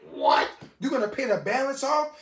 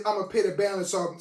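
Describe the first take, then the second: First: Higher-pitched disbelieving question; acted-out astonishment, voice lifting at the end; incredulous. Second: Said in the usual way. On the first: Storyteller reacting to the boss's offer to pay, incredulous.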